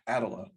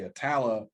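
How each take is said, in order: First: The name is said the way a computer voice would say it. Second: The name is said with the local pronunciation. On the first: The speaker calls it wrong. "the northern or the uh, computer way" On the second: The speaker calls it right. "when people say"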